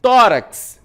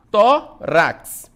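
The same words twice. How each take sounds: First: Said in the usual way. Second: "Tórax" split into Tó, rax with a gap; loud, separated beats on "Tórax"; syllable by syllable. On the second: Shown as a demonstration. Teacher doing the same with tórax, syllable by syllable. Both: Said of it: "mesma coisa".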